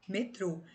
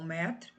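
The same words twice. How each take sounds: First: Metrô with closed trô stressed, falling; me-TRÔ, hit the last syllable. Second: Metro with open mé stressed; MÉ-tro, lean on the first syllable. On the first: (metrô, com força no TRÔ) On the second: (metro, com força no MÉ) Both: Shown as a demonstration. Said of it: "Então".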